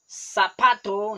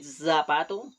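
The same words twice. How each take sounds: First: The word begins with an S sound. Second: The word begins with a Z sound. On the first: This is how people in Costa Rica say it. "people never pronouncing Z" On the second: This is the pronunciation Costa Ricans avoid.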